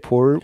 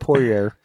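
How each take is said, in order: First: The name is said with a French pronunciation. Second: The name is said with an American pronunciation. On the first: "I'm going to say it French" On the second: "Say it American"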